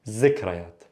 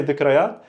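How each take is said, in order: First: "zikrayat" opening on a clear z; dialect pronunciation. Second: "dhikrayat" opening on a voiced th; preserved th pronunciation. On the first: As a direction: say "zikrayat" with z, not th. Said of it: "also you will hear people say". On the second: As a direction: say "dhikrayat" with th, not z. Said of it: "you will hear people say dhikrayat". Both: Shown as a demonstration.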